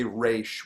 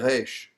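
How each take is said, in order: First: It starts with an English-style r sound. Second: It starts with an Israeli-style r sound. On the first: "in America, we usually say Raish with a R, like the same way that we would say rodeo" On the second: "In Israel, they would say Reish"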